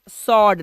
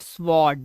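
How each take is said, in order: First: The w sound is silent. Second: The w sound is pronounced. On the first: The speaker calls it right. "This is सॉर्ड" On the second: The speaker calls it wrong. "Not स्वॉर्ड"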